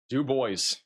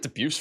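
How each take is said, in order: First: The name sounds like 'doo-BOYS'. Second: The name sounds like 'de-BUSE'. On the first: The speaker calls it right. "Apparently it's Du Bois" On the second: The speaker calls it wrong. "Where did I get Debuse from?"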